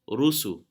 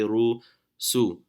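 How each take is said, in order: First: The two syllables run together without a pause. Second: There is a pause between the two syllables. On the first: The speaker calls it right. "Put it together. It becomes Rusu" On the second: The speaker calls it wrong. "Don't say Ru, Su"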